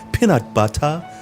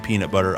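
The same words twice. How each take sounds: First: It imitates the accented butler's voice. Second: It is said in his own plain voice.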